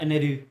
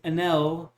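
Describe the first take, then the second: First: The name ends with an r-like ru sound. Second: The name ends with a clear l sound. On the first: It is the Japanese pronunciation. The speaker calls it wrong. "not Eneru" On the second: It follows the spelling. The speaker calls it right. "So his name is Enel"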